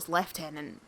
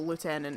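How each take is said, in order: First: The first syllable sounds like 'lef'. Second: The first syllable sounds like 'loo'. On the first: This is the pronunciation that fits the Hornblower setting. The speaker calls it right. "no, it's Lieutenant" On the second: This is the speaker's habitual everyday pronunciation. The speaker calls it wrong. "I still struggle to not go Lieutenant"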